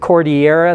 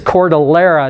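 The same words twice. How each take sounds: First: The double L is not said as an L. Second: The double L is said as an L. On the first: The speaker calls it wrong. "a lot of people pronounce it Cordillera, thinking it's from Mexico and Spanish" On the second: The speaker calls it right. "the L was pronounced. ... And so it's Cordillera"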